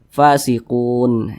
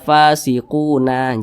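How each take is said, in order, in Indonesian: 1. Kata ini berakhir dengan bunyi n mati. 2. Kata ini berakhir dengan vokal a yang ditambahkan. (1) "huruf nun tersebut harus kita sukunkan. Jadi dibaca fasiqun" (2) "jangan dibaca fasiquna"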